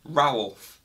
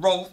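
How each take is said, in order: First: The vowel is an ow sound, as in owl. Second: The vowel is a plain short o sound. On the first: The speaker calls it right. "with an owl sound" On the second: The speaker calls it wrong. "it's not Rolf"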